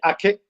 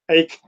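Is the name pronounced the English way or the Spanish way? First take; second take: Spanish; English. First: The name is said with a Spanish pronunciation. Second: The name is said with an English pronunciation. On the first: This is how it is said in Spain. "I'm from Spain, so we say Ake" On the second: This is how English speakers and Americans say it. "English Americans it's Ake"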